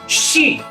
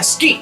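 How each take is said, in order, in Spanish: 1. La palabra empieza con un sonido sh. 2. La palabra empieza con los sonidos s y k por separado. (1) "se pronuncia ski" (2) "en noruego no se pronuncia ski"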